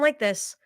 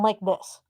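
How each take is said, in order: First: The sound is clear and full. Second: The sound is thin and muffled. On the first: The speaker calls it right. "if I sound like this" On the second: The speaker calls it wrong. "they sound like this, because it makes them sound amateur"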